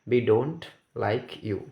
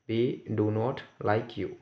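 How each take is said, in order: First: The verb is contracted to one syllable, don't. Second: The verb is said in full as two words. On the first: The speaker calls it wrong. "Sorry डोंट इसमें comma होता तो पढ़ते डोंट" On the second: The speaker calls it right. "नहीं डू नॉट पढ़ेंगे"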